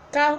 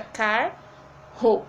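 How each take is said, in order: First: Said in the usual way. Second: "car-ro" said slowly, two separate syllables; split into syllables. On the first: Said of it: "fica car-ro". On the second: Shown as a demonstration. Teacher showing pupils how carro splits, slowly. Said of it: "quando nós separamos".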